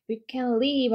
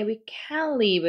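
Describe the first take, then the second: First: "can" weak and quick, "live" stressed; teacher demonstrating positive "can", with the stress saved for "live"; stress on LIVE only. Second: "can" and "live" both stressed, meaning can't; teacher demonstrating negative "can" with full stress on "can" and "live". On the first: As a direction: glide over "can" and land on "live". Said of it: "live에 강세를 주면 그때는". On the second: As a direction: punch "can", then punch "live" as well. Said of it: "can에 강세 주고 live에 강세 주면은". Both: Shown as a demonstration.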